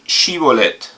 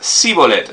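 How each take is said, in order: First: The word begins with an sh sound. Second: The word begins with a plain s sound. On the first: The speaker is from Gilead. "la diferencia aquí entre las palabras es esta H" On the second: The speaker is from Ephraim. "Y él decía sibolet"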